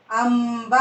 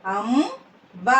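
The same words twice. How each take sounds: First: Said in the usual way. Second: "అంబ" split, rising అం, then బ; "అంబ" in two separate syllables. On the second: Shown as a demonstration. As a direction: slowly sound out "అంబ" with a gap. Teacher sounds out syllables.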